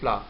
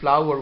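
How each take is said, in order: First: The word is said in a shortened, weak form. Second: The word is said in its full, strong form. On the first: The word is inside a sentence. "we use their weak form" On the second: The word stands alone. "strong pronunciation of words"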